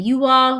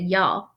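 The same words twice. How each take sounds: First: Said in the usual way. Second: "y'all" run into one Southern syllable; Southern style. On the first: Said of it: "she said y'all". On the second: Shown as a demonstration. Narrator shows mother's worried speech, Southern "y'all". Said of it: "Mama started talking Southern style".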